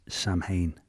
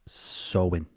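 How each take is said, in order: First: It starts with 'sam', with a clear 'm' sound. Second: It starts with 'sow', with no 'm' sound. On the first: The speaker calls it wrong. "if I was to say it phonetically as it's as it's written" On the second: The speaker calls it right. "but it's pronounced Sowin apparently"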